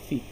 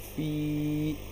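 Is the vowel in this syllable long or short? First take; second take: short; long. First: The vowel is short and soft. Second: The vowel is drawn out long. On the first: "बहुत सॉफ्टली पढ़ेंगे, खींचेंगे नहीं" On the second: "इसको अब खींच कर पढ़ेंगे"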